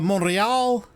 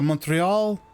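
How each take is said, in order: First: The name is said with French pronunciation. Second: The name is said with English pronunciation. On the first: The speaker calls it right. "that's how you're actually supposed to say it if you're staying in French" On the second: The speaker calls it wrong. "let me do it again"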